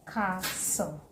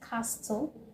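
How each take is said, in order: First: The T sound is silent in the middle. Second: The T sound is pronounced in the middle. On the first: The speaker calls it right. "The T is not heard" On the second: The speaker calls it wrong. "Do you say castle? No"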